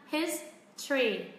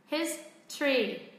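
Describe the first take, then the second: No difference in how they are said.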